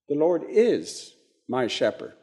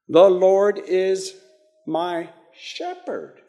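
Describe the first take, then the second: First: The stress is on "is". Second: The stress is on "shepherd".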